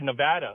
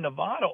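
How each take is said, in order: First: Nevada is said the way locals say it. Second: Nevada is said the non-local way.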